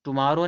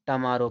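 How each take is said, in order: First: "टुमारो" with a clear u, tu-maaro; rejected "टुमारो", full u first; wrong pronunciation. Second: "टमारो" as tuh-maaro; "टमारो", first syllable weakened; correct pronunciation. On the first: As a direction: say "टुमारो" starting too. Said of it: "नहीं". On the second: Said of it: "पढ़ा जाता है". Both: Shown as a demonstration.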